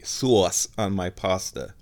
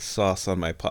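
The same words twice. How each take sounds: First: SAUCE drawn out in mock correction; comically over-pronounced, lengthened sauce; affected pronunciation. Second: Said in the usual way. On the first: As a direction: stretch the word sauce slowly and showily. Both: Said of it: "excuse me".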